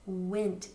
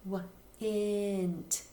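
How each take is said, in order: First: Crisp went with a short eh; the right way to say went; correct went. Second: Drawn-out wa-int vowel; kids' misspelling sound. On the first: Shown as a demonstration. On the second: Retold or imitated. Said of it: "they might say".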